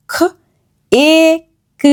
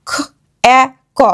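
First: খ, এ, ক sounded separately, এ as long 'ay'. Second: খ, এ, ক sounded separately, এ as short 'æ'. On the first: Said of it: "এই ই এ কে long sound করে দিল". (লম্বা 'এ' ধ্বনিতে আলাদা করে) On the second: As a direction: sound out খ, এ, ক with a short 'a' as in cat. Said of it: "এই ই যদি না থাকতো তাহলে এটা সাউন্ড". (ছোট 'অ্যা' ধ্বনিতে আলাদা করে) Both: Shown as a demonstration.

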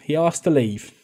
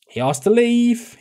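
First: Said in the usual way. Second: Much higher and slower, protesting; exclaimed protest. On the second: Real, not acted. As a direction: insist it wasn't your fault, high and drawn out. Defending a player's exit.

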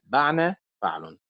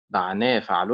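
First: بعنا with the stress on بع; wrong stress, first syllable. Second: بعنا with the stress on نا; stress on the noon. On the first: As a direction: punch the بع of بعنا. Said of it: "وليست بعنا فعل". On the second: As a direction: lean on the نا of بعنا. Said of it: "بنبر حركة النون من الكلمة". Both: Shown as a demonstration.

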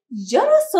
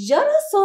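First: Said in the usual way. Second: جرس repeated much higher and louder; word repeated for kids. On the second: Shown as a demonstration. Teacher repeating جرس for children, up high. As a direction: say جرس again, pitched up high and a little louder. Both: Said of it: "الكلمة الثالثة".

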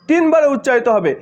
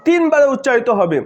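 Both takes have the same delivery.

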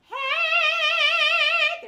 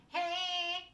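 First: High, loud bright "Hey" with nothing in the nose; oral twang. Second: "Hey" pushed into the nose, high and loud; a nasal, twangy "Hey"; nasal twang. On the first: Vocal coach demonstrating oral twang with a high, loud "Hey". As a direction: sing "Hey" bright and forward in the mouth. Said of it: "So when I'm going". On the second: Vocal coach demonstrating nasal twang on "Hey". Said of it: "more of a nasal twang". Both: Shown as a demonstration.

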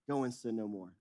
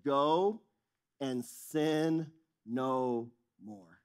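First: Quieter, lower repeat; softer echo. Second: Very slow, weighty command; solemn and slow. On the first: Jesus repeating his command, hushed and low. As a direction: let it fall away gently. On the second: Jesus sending the woman away, slow and solemn. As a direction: stretch each word with gravity. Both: Retold or imitated.

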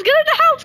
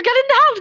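First: Higher, more urgent yell; louder yelling. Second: Yelling. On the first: Repeated higher. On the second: First call. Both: Real, not acted.

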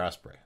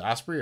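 First: Osprey with a final "ay" sound; Osprey ending in "ay". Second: Osprey with a final "ee" sound; Osprey ending in "ee". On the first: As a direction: say Osprey to end like "spray". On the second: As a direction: say Osprey to end like "spree". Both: Shown as a demonstration. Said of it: "Is it Osprey or Osprey?".

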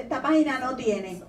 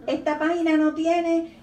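First: Said in the usual way. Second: Louder, higher insistence on the repeat; emphatic repeat. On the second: Shown as a demonstration. Reader insisting to herself that "esta página no tiene".

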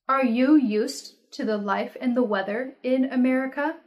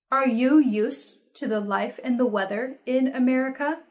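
Both takes have the same delivery.

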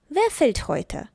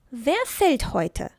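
First: Said in the usual way. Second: Very slow, careful question; slow example. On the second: Shown as a demonstration. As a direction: stretch each word for learners. (дуже повільно, по словах)

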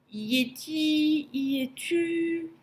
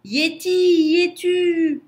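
First: High, slow, timid call; small frightened voice, drawn out; trembling murmur. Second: High, loud, drawn-out shout; long hollering call, pitched way up. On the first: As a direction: ask it fearfully, stretching the words, without shouting. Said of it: "murmura Lou tout tremblant". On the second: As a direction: yell across a great distance, stretching each word. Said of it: "Lou cria". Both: A narrator's reading.

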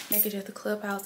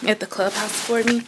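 First: Much softer, almost to herself; quiet recap. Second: Said in the usual way. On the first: Shown as a demonstration. Vlogger reminding herself of the errand, quietly. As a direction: mutter the reminder under her breath.

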